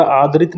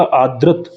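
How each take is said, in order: First: "आदृत" with an i after the r, aa-drit; wrong form demonstrated. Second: "आदृत" with an a after the r, aa-drat; correct form demonstrated. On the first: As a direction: say "आदृत" as aadrit. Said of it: "आदृत नहीं होता". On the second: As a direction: say "आदृत" as aadrat. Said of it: "इसी तरह आदृत नहीं होता". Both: Shown as a demonstration.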